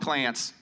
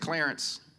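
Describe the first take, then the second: First: The R sound is weak or missing. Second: The R sound is clearly pronounced. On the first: This is how a relative said the name. The speaker calls it wrong. "my grandma never pronounced that R too well, so she called him Clarence" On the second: This is the name's actual form. The speaker calls it right. "my grandfather's real name is Clarence"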